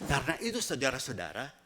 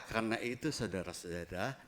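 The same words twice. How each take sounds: First: It is said in a pressing, urgent way. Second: It is said in a relaxed, offhand way. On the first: Something important is being said. The speaker calls it right. "Jadi ada urgently. Jadi ada sesuatu yang penting" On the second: Nothing important is being said. The speaker calls it wrong. "Dia nggak bilang"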